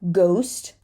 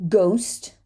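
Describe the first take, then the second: The two takes are said the same way.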